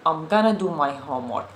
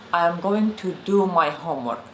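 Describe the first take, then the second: First: 'I am going to' is contracted to 'I'm gonna'. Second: Every word of 'I am going to' is said fully. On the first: The speaker calls it right. "What native speakers say" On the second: The speaker calls it wrong. "not I am going to"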